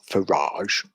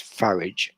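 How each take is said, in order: First: The name ends with a soft 'zh' sound. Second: The name ends with a hard 'j' sound. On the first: This is the usual version the speaker rejects. The speaker calls it wrong. "It's not Farage" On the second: This is the version locals are allowed to use. The speaker calls it right. "his proper name, which is Farage"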